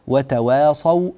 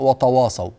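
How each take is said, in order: First: The t sound is light and thin. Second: The t sound is heavy and emphatic. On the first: The speaker calls it right. "التاء مرققة" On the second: The speaker calls it wrong. "في ناس تقرأ وتواصوا طا تواصوا هكذا، ما ينفعش"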